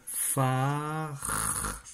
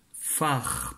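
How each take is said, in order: First: Long held vowel into a lingering R; drawn-out syllable. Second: First syllable said on its own; isolated syllable. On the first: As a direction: stretch the syllable so every sound is heard. (syllabe très étirée, R prolongé) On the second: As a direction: give the syllable neatly for spelling. (syllabe isolée, bien articulée) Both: Shown as a demonstration. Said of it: "première syllabe".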